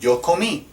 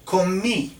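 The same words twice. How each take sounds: First: Yo comí, the final I stressed and high; repeated stressed comí. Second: Comí with a high, stressed final I; comí, stress the accented I. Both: Shown as a demonstration. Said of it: "an I with an accent".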